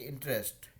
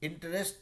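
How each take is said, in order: First: The middle vowel is dropped, giving two syllables. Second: The middle vowel is pronounced as a full syllable. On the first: The speaker calls it right. "ई जो है बीच का वो उसको खा जाते हैं" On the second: The speaker calls it wrong. "इंटरेस्ट नहीं"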